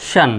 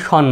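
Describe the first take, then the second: First: শান with an open "a" vowel, not "o"; open "shan". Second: শন with a full rounded "o" vowel; rounded "shon". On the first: Teacher models the correct word ending, open শান. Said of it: "শান, এরকম". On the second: Teacher shows the ending to avoid, rounded শন. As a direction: say শন flatly as "shon". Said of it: "সরাসরি শন নয়". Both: Shown as a demonstration.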